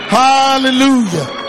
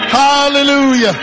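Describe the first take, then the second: The two takes are said the same way.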